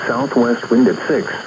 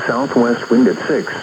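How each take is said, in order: Both takes have the same delivery.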